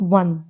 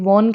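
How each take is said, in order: First: The word is said the standard English way. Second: The word is said the common local way. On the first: The speaker calls it right. "but it's one" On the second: The speaker calls it wrong. "which we usually speak as like"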